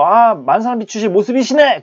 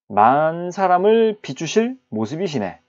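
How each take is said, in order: First: It is said with an admiring exclamation. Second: It is said as a plain, flat statement.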